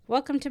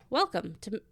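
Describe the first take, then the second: First: It stays at an even pitch. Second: It starts high and comes down. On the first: The speaker calls it right. "I kind of do it even" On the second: The speaker calls it wrong. "I was doing my so you want to read Tolkien voice"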